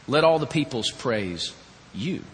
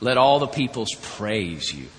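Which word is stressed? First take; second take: you; all. First: The stress falls on the word you. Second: The stress falls on the word all. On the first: Only this one should be worshipped, no one else. "what it says is, "Let the peoples praise you and no one else."" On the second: Every nation should worship. "You hear something in that, that you should hear, by the way, that God wants all the nations to worship Him"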